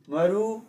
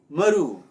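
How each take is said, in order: First: The pitch rises across the word. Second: The pitch falls across the word. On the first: It means origin. "then maru is rising tone" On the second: It means a seed of a fruit or a bone of a fish. "falling tone Maru"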